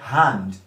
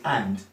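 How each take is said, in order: First: The initial H sound is pronounced. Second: The initial H sound is dropped. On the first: "not hand" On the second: "what you hear from a Cockney person is and"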